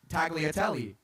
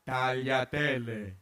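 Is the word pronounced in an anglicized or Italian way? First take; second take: anglicized; Italian. First: The word is pronounced in an anglicized way. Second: The word is pronounced in an Italian way. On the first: The speaker calls it wrong. "Nobody wants to hear tagliatelle" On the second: The speaker calls it right. "if you can say it right"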